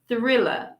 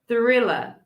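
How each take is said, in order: The two takes are said the same way.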